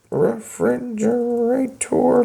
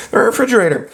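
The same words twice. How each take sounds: First: Slow, drawn-out, writing refrigerator letter by letter; slow spelled out. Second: Said in the usual way. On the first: Shown as a demonstration. Teacher writing refrigerator into the contract, slow and drawn out. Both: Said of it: "Is that how you spell it?".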